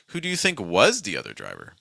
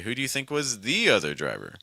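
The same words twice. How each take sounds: First: The word think carries the main stress. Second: The word the carries the main stress. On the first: "if I stress think" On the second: "the probably wouldn't get stressed in this situation, but you could, in theory, say"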